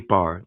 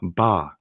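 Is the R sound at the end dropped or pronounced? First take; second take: pronounced; dropped. First: The final R sound is clearly pronounced. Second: The final R sound is dropped entirely. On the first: "They don't say bar" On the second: "Some cultures have a soft R"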